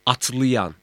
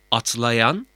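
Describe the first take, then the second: First: "atlayan" said as atlıyan; colloquial narrowed vowel. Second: "atlayan" with a full a before y; written-form vowel. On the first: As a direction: narrow the first a of -ayan to ı in "atlayan". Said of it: "Yanlış yazım". ("atlayan", atlıyan gibi) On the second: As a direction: keep the la open in "atlayan". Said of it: "Doğru yazım". ("atlayan", daralmamış a ile) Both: Shown as a demonstration.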